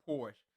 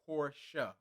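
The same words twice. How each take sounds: First: It ends on the consonant sound, with no final vowel. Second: It ends with a vowel sound, like Portia. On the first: The speaker calls it wrong. "not a Porsche" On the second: The speaker calls it right. "the pronunciation is Porsche, like Portia"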